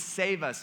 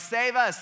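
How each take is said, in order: First: Said in the usual way. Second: High, loud imitated cry; acted shout for rescue; crowd shout. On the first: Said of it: "which just means". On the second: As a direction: call it out like a cheering crowd. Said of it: "they all shouted".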